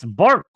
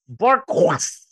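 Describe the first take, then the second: First: The name is said plainly, like English 'bark'. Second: The name is said with a put-on French accent.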